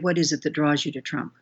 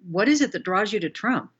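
First: The voice falls at the end of the question. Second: The voice rises at the end of the question. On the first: The asker is simply curious. The speaker calls it right. "I'm going to come down at the end of the question" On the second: The asker is passing judgment. The speaker calls it wrong. "instead of the up"

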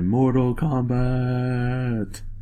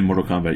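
First: Kombat is drawn out and said dramatically. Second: Kombat is said quickly and plainly. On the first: The speaker calls it right. "you gotta drag out the combat longer" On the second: The speaker calls it wrong. "You can't just say Mortal Kombat"

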